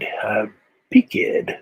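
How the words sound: Peaked is said the hill-dialect way. I have reached my limit. "But they pronounce it peaked"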